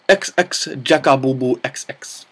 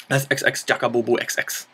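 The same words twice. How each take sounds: First: Put-on slips into a comic Japanese accent on the name; thanking a viewer in a mock Japanese accent. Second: Said in the usual way. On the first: Thanking the list writer, in a mock Japanese accent. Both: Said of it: "That was suddenly a very Japanesey kind of accent".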